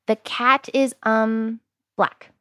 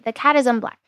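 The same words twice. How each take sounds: First: A short pause comes before 'black'. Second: No pause comes before 'black'. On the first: The filler word can be cut out easily in editing. The speaker calls it right. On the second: The filler word is hard to cut out in editing. The speaker calls it wrong.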